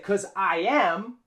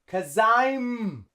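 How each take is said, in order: First: It is said as two full words. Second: It is said as one contracted word. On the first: The speaker calls it wrong. "So here we don't say" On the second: The speaker calls it right. "We use the contraction"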